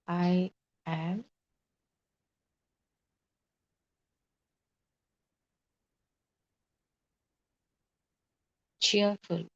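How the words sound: There is a pause after "I am".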